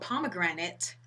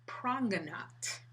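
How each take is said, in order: First: The word is said in its full standard form. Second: The word is clipped into a shorter, altered form.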